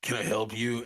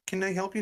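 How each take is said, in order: First: Lightly voiced sluggish server; mildly unwelcoming, lower than the manager; reluctant counter worker. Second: Lightly voiced helpful manager, higher pitch; manager stepping in. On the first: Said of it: "this pink-haired slug". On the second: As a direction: offer help as the manager. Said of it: "the manager comes out".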